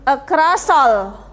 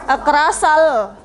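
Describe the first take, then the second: First: The two words are joined together smoothly. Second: The same.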